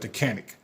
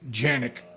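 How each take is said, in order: First: The word begins with a hard k sound. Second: The word begins with a soft j sound. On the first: The speaker calls it wrong. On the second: The speaker calls it right.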